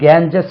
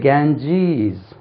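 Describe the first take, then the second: First: The second syllable has a short vowel. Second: The second syllable has a long ee vowel. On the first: The speaker calls it wrong. "இது கேஞ்சஸ் இல்லை" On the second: The speaker calls it right. "இது ஜ ஜீஸ்"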